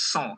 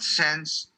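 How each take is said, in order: First: The vowel is nasal and the final s is silent. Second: The word ends with clear n and s sounds. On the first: The speaker calls it right. "It's S A berdengung, silent N S" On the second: The speaker calls it wrong. "it's not sans serif"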